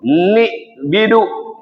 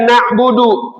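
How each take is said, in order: First: The word has i vowels in both first syllables. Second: The word has a, u and u vowels.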